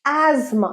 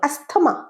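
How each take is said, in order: First: The middle is said with a z sound. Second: The middle is said with an s-th sound. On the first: The speaker calls it right. "এটার উচ্চারণ অ্যাজমা" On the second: The speaker calls it wrong. "থ বলো, ভুল বলো"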